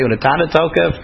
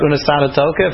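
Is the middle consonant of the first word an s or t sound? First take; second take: t sound; s sound. First: The first word has a t sound in the middle. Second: The first word has an s sound in the middle. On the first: "even if you say Unatana Tokef" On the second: "If you speak about Unasana Tokef"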